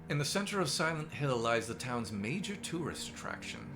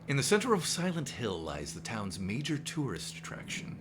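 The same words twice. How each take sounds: First: It is read in the speaker's ordinary voice. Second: It is read in an imitated dramatic narrator voice. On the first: "I wasn't going to do the Rod Serling voice" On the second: "now I feel like I got to do the Rod Serling voice"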